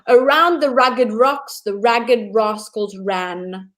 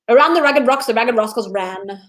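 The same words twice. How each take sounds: First: The phrase is spoken at a slow pace. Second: The phrase is spoken at a faster pace. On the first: "I'm going to say it slowly" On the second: "then I'm going to go a little bit faster"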